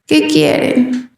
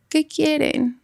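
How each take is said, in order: First: Slow, drowsy reply in her own voice. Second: Soft, drowsy little voice; like someone half asleep answering; sleepy small voice. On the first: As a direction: mimic the ghost sounding like her, slow and sleepy. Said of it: "Pero con mi voz". (imitando su propia voz, lenta y adormilada) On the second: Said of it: "Como si estuviera dormida, como chiquito". (voz bajita de dormida) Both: Retold or imitated.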